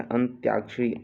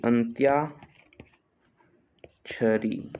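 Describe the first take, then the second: First: Said in the usual way. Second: "अंत्याक्षरी" very slow, long gap midway; split slowly for dictation. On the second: Shown as a demonstration. Teacher dictating a spelling, अंत्याक्षरी slowly in parts. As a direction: break "अंत्याक्षरी" into अंत्या, pause, क्षरी.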